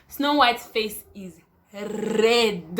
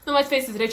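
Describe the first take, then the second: First: Each word drawn out slowly; slow emphatic. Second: Said in the usual way. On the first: Shown as a demonstration. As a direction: spell it out slowly for effect.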